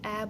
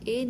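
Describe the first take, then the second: First: The vowel is short, a brief open sound. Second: The vowel is long, like the letter name. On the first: The speaker calls it right. "Short vowel ए की sound, ... इसको ए बोलेंगे" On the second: The speaker calls it wrong. "इसको हम यहाँ ए नहीं"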